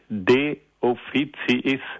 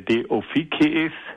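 First: The c is pronounced softly, like ts. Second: The c is pronounced hard, like k.

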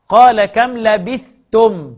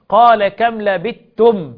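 First: The th sound is pronounced clearly before t. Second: The th sound merges into the following t. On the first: "يقرأها بالإظهار حرمي نصر" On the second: "غيرهم بالإدغام"

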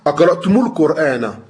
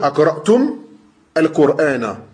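First: The m links to the next word with u. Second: The first word ends on m, no added vowel. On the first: "tu enchaînes, tu dis" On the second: "Si tu t'arrêtes, tu vas dire"

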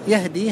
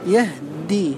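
First: The h has no vowel and the d is single. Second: The h has no vowel before a doubled d. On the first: "هذه من هدى الثلاثي" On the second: "ينطق بها هكذا مع سكون الهاء"

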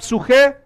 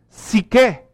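First: The vowel after the first consonants sounds like u. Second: The vowel after the first consonants sounds like i. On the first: This is how it was read in New Testament times. "estoy usando la pronunciación del griego antiguo" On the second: This is how Greek is pronounced today. "Si viviéramos hoy, lo pronunciaríamos psique"

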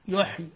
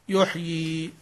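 First: The final vowel is cut short. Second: The final vowel is held long. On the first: The speaker calls it wrong. "ما تقول يحي" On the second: The speaker calls it right. "لا يحيي"

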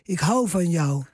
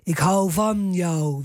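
First: The stress falls on the word hou. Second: The stress falls on the word jou. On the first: The speaker calls it right. "ik hou van jou, is het" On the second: The speaker calls it wrong. "het is niet van jou"

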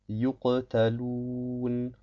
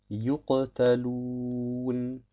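No difference in how they are said.

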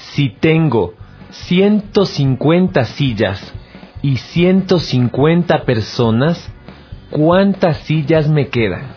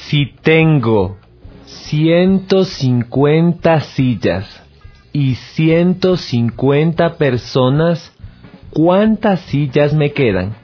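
First: It is read at a normal, quicker pace. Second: It is read a little more slowly.

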